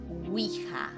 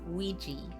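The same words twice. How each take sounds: First: The word has a Spanish pronunciation. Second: The word has an English pronunciation. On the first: "in Spanish is Ouija" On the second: "the pronunciation in Spa- in English is Ouija"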